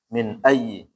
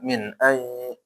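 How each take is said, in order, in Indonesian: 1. Y yang digandakan itu pendek dan cepat. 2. Y yang digandakan ditahan dengan dengung sengau.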